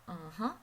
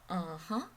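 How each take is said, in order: No difference in how they are said.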